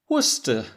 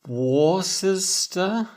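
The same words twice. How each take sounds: First: The name is pronounced not following its written letters. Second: The name is pronounced following its written letters. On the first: The speaker calls it right. "in fact it's pronounced Worcester" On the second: The speaker calls it wrong. "which is spelt W O R C E S T E R, I might think it's pronounced Worcester"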